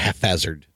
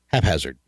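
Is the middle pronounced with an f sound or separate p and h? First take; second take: f sound; p and h. First: The p and h merge into an f sound. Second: The p and h are pronounced as separate sounds. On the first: The speaker calls it wrong. "Not haphazard. ... it's not a P-H" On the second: The speaker calls it right. "It's spelled H-A-P, hazard"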